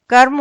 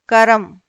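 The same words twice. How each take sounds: First: कर्म as one syllable, "karm"; r runs straight into m in कर्म; correct half-r. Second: कर्म as two syllables, "ka-ram"; extra vowel between r and m in कर्म; wrong split cluster. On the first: Teacher corrects कर्म, said "karm". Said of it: "कर्म होता है". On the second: Teacher shows wrong कर्म, said "karam". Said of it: "अशुद्ध रूप है". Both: Shown as a demonstration.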